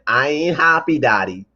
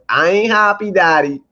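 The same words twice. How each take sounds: First: It is read in the reader's plain voice. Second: It is said in a put-on character voice.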